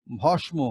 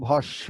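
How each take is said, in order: First: ভস্ম as written, bhosh-mo; spelling pronunciation. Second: ভস্য as bhosh-sho, m silent; spoken pronunciation. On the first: Teacher reads the written form, ভস্ম with audible m. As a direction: sound the ম clearly in ভস্ম. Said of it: "যেমন আমরা লিখছি". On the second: Teacher shows the everyday form, ভস্য with doubled sh. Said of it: "কিন্তু আমরা বলছি". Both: Shown as a demonstration.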